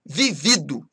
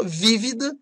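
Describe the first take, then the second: First: VIVIDO stressed on the second syllable; tônica no segundo VI. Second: VÍVIDA stressed on the first syllable; tônica no primeiro VÍ. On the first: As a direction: say Vivido with the weight on the middle VI. (Vivido com tônica na penúltima) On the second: (vívida com tônica na primeira sílaba) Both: Shown as a demonstration. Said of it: "mudam de sentido conforme a pronúncia".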